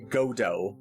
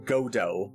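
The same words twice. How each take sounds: First: The name is stressed the British way. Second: The name is stressed the British way.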